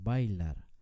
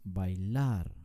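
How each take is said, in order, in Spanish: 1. El acento está en la primera sílaba. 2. El acento está en la última sílaba. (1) "Nunca decimos bailar" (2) "con mucho énfasis en la última sílaba"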